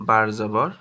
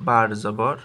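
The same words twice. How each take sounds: Both takes have the same delivery.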